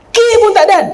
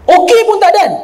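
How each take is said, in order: First: Higher and louder, rushing off; quick blurt as she leaves; mock hasty wife. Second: Higher and louder, rushing out before the okay; mock hasty wife. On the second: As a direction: blurt it out, already out the door. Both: Preacher mimics wife leaving before husband replies, rushing.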